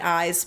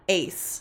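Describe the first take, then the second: First: The vowel sounds like the one in 'size'. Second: The vowel sounds like the one in 'face'. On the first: "I kind of like eyes better" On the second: "it's definitely Ace. Sounds just like Ace"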